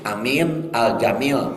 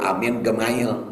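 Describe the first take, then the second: First: The name is said with a j sound. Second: The name is said with a hard g sound.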